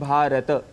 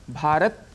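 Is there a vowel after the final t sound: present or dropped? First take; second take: present; dropped. First: A short vowel is sounded after the final t. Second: The word ends on t with no vowel. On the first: The speaker calls it right. "भ, आ, र, अ, त, अ ये ध्वनियां हैं" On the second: The speaker calls it wrong. "भारत कहने से त में जो अ है साउंड वह हट जाता है"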